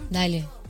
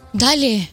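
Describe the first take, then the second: First: It sounds warm and sympathetic, like comforting a friend. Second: It sounds frightened, as if in terror.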